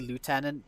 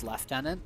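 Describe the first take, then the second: First: It is said with an American pronunciation. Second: It is said with an English pronunciation. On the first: "I think they say lieutenant" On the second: "in England it was always lieutenant"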